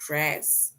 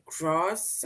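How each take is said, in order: First: "grass" with a short a as in cat; "grass" rhyming with mass; alternative pronunciation of grass. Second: "grass" with a broad ah vowel; long open ah in "grass"; local pronunciation of grass. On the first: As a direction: say "grass" with the front a of trap. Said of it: "I'm not sure if you say". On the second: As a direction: say "grass" as grahs. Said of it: "In my country, we say". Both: Shown as a demonstration.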